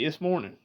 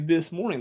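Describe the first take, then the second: First: The TH sound in "this" is dropped. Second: The TH sound in "this" is kept.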